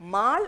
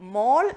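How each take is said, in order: First: The vowel is an open 'ah' sound. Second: The vowel is a rounded 'aw' sound. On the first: The speaker calls it wrong. "പക്ഷെ ഇത് മാൾ എന്നല്ല" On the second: The speaker calls it right. "മോൾ എന്നാണ് correct ആയിട്ട് pronounce ചെയ്യുന്നത്"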